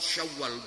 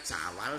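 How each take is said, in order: First: It is said with Arabic sounds. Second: It is said with Javanese-adapted sounds. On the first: This form is hard to say. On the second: This form is easy to say.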